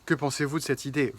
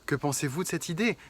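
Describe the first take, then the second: First: It is said without a smile, flatly. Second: It is said with a smile in the voice. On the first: The speaker calls it wrong. "C'est plutôt que" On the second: The speaker calls it right. "vous souriez en le disant et vous le dites"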